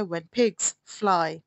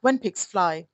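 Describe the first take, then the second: First: When pigs fly said very slowly, stress on pigs. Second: Said in the usual way. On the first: Shown as a demonstration. Teacher repeating the proverb for students, very slowly. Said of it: "इसका क्या मतलब होता है". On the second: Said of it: "proverbial English सिखा रही हूँ".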